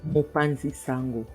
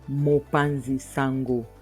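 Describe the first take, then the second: First: It is said quickly in one go. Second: It is said at an ordinary pace. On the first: "I'll say it fast" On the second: "I'll just say it normally"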